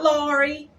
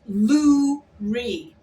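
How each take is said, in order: First: The first vowel sounds like 'lor'. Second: The first vowel sounds like 'loo'. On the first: The speaker calls it wrong. "Not Laurie" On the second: The speaker calls it right. "It's Luri"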